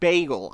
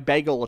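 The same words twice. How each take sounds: First: Bagel is said the standard way, like "bay-gel". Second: Bagel is said like "beggle" with a local accent. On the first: The speaker calls it right. "See, I can do it. I can say bagel" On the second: The speaker calls it wrong. "My bagel just has, like, it's B-E-G-L-E"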